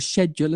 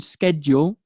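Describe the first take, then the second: First: The word is said in a British way. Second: The word is said in a non-British way.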